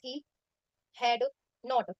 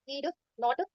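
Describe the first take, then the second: First: He had is said as two full words. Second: He had is shortened to one syllable, he'd.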